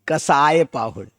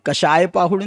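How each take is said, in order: First: The middle consonant is a plain 's' sound. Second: The middle consonant is a 'sh' sound. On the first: This is the Prakrit form of the word. The speaker calls it right. "सड़क का" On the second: This is the Sanskrit form of the word. The speaker calls it wrong. "कषाय पाहुड़ नहीं"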